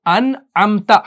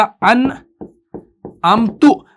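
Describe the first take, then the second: First: अनअमता with a clear short "a" on ता; correct reading. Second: अनअमतु drawn out very slowly, ending in "tu"; wrong vowel. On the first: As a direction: say अनअमता ending in a plain open "ta". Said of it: "अनअमता पढ़ा तो ठीक पढ़ा". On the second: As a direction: stretch out अनअमतु, landing on "u" not "a". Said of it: "लेकिन अगर आप पढ़ेंगे". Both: Shown as a demonstration.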